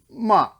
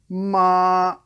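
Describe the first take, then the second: First: The pitch falls sharply from high. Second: The pitch stays high and level. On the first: "the chop" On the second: "the airplane"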